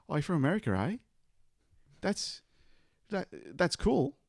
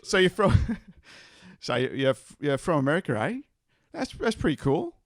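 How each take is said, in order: First: Put-on Bogan farmer accent. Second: High, loud Bogan farmer voice; broad Australian accent. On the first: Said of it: "Give us a taste of your Bogan accent". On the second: Acted. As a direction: ham up a broad Aussie farmer. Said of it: "your Bogan farmer accent".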